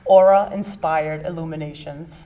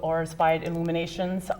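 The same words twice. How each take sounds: First: It is said at a slow pace. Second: It is said at a fast pace.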